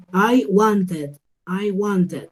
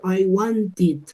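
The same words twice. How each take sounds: First: WANTED as "want-ed", full E vowel; common error. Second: WANTED as "want-id", I in the last syllable; teacher models "wanted" ending in ID; correct ID ending. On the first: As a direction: mistakenly say "wanted" with an open E ending. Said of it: "Error común". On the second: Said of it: "Entonces yo diría wanted". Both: Shown as a demonstration.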